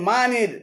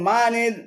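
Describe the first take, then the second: Both takes have the same delivery.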